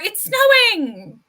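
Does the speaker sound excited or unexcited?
unexcited. It is said in an unexcited, glum tone. The speaker is unhappy about the snow. "or are you not excited for the snow"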